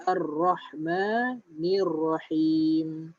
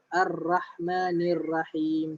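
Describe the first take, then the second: First: "Ar-Rahmanir Rahim" with a full, heavy ro sound on ra; correct heavy ra. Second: "Ar-Rahmanir Rahim" with a thin, light ra as a mistake; wrong thin ra. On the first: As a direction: say "Rahmanir Rahim" with a thick, rounded ra. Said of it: "Jadi bunyi dia rah". (sebut "Ar-Rahmanir Rahim" dengan ra tebal) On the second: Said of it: "Itu salah". (sebut "Ar-Rahmanir Rahim" dengan ra nipis yang salah) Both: Shown as a demonstration.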